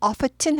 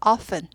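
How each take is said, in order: First: The t sound is pronounced. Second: The t sound is silent. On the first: The speaker calls it wrong. "often 하지 않고" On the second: The speaker calls it right. "t가 묵음이죠"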